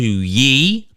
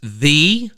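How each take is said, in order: First: The word begins with a y sound. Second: The word begins with a th sound. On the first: The speaker calls it wrong. "as opposed to ye" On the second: The speaker calls it right. "ye is actually pronounced the"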